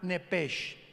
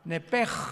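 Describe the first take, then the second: First: The word ends with a soft 'sh' sound. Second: The word ends with a rough throaty sound. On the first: The speaker calls it wrong. "como suena nepesh" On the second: The speaker calls it right. "se pronuncia como J ... Que es gutural"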